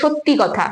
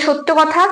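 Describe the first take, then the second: First: The first word ends with an added 'i' vowel. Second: The first word ends without a final vowel. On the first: "লাস্টে একটা ই স্বরধ্বনি আসছে" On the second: "যখন সত্য বলছি তখন কিন্তু শেষে কোনো স্বরধ্বনির আগমন হয়নি"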